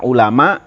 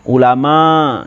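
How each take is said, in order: First: The final vowel is held short. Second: The final vowel is drawn out long. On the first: It is shortened to fit the poem's meter. "ini tidak panjang" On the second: This is the normal rule for the word. "aturannya kan panjang ya. Ulama gitu"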